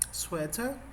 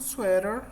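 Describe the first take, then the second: First: It is said with a British accent. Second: It is said with an American accent. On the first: "é o inglês mais britânico" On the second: "inglês americano"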